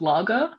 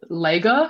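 First: The first vowel does not sound like laser. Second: The first vowel sounds like in laser. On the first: This is the usual way to say it. The speaker calls it right. "instead of lager, like the beer" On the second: Someone else said it this way. The speaker calls it wrong. "my housemate said lager"

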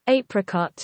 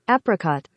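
First: Apricot is said with a British pronunciation. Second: Apricot is said with an American pronunciation. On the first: "Original English" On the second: "here's America fucking everything up with your"

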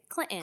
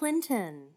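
First: The middle T is a glottal stop. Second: The middle T is clearly pronounced.

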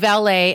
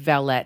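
First: It is said with an American pronunciation. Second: It is said with a British pronunciation.

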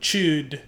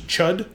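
First: The vowel is a long 'oo' sound. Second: The vowel is a short 'uh' sound. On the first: "they like did pronounce it with kind of like a sharper U sound" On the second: "I always assumed it was chud"

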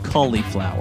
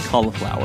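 First: The first syllable sounds like 'colly'. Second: The first syllable sounds like 'caw'. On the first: "I always said cauliflower" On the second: "I actually didn't know how to say cauliflower"

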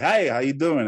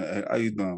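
First: The greeting sounds polished, like a TV presenter. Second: The greeting sounds relaxed and casual, like among friends. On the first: The speaker is in a professional on-air role. "I have the TV reporter accent... I'm a, you know, personality. So I should be like" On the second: The speaker is relaxed among friends. "but like when I'm around friends, I'm like"

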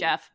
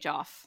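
First: The vowel is the short 'e' of 'Jeff'. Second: The vowel is the open 'o' of 'Joff'. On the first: This is the expected pronunciation. "Supposed to say Jeff" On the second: This is the speaker's preferred pronunciation. "but I like to say Joff"

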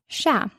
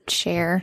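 First: The word ends with an open 'ah' sound. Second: The word ends with an 'air' sound. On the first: The speaker calls it right. "it's "cha." That's how you say it" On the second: The speaker calls it wrong. "They always say "share.""

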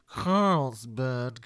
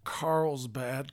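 First: It is said in a snooty put-on voice. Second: It is said in his plain, normal voice.

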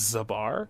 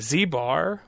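First: The name is said as one word, Zabar. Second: The name starts with the letter name Z.

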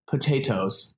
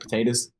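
First: The T sounds are crisp and clearly pronounced. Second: The middle T is softened into a D sound. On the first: "I wanted to make sure to emphasize the T's on potatoes" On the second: "I usually would probably say it with the D"

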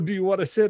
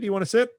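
First: It is said in a condescending, overdone way. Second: It is said in a casual, throwaway way.

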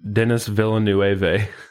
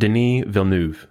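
First: The name is given an Americanized pronunciation. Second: The name is given a French pronunciation. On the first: The speaker calls it wrong. "I thought it was pronounced ... because I'm American" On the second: The speaker calls it right. "So it's pronounced"

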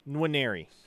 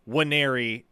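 First: A faint N is formed before the W. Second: The name starts with W and no N. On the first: The speaker calls it right. "you form the N in your mouth, but don't completely pronounce it" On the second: The speaker calls it wrong. "just saying Wanneri as if the N isn't there"

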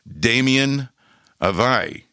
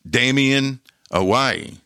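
First: Awai is said with a V sound. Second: Awai is said with a W sound. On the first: The speaker calls it wrong. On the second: The speaker calls it right. "That's how you say it"

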